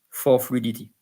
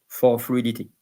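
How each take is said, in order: No difference in how they are said.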